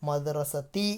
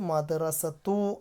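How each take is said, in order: First: The word ends in the vowel i. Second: The word ends in the vowel u. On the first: The speaker calls it right. "മദ്റസത്തി എന്നാണ് വരിക" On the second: The speaker calls it wrong. "മദ്റസത്തു അല്ല വരിക"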